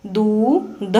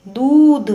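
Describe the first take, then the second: First: Said in the usual way. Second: दूध with the ऊ held long and higher. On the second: Shown as a demonstration. Teacher repeating दूध for pupils, long and high. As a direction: stretch and lift the ऊ in दूध. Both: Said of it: "लंबे समय तक और ऊंचे स्वर में पढ़ा".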